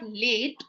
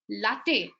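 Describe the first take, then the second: First: The final e is silent, one syllable. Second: The final e is pronounced, two syllables. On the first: The speaker calls it wrong. "it's not late" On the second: The speaker calls it right. "it is latte"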